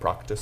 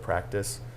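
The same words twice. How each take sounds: First: The first vowel is a broad ah sound. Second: The first vowel is a short flat a. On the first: "in my dialect, it'd be practice. Big, big ah sound" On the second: "if I was to say the word practice"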